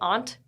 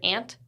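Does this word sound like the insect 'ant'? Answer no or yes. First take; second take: no; yes. First: It does not sound like the insect word. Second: It sounds just like the insect word. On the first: The relative, said the way this speaker says it. The speaker calls it right. "So I guess I say aunt" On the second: The relative, said the way others say it. The speaker calls it wrong. "when I hear ant, I'm like, an ant? A bug?"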